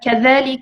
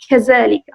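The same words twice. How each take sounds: First: The middle consonant is a dh sound. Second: The middle consonant is a z sound. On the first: "instead of saying" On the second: "they pronounce, for example, the, the letter dal in Arabic like zay"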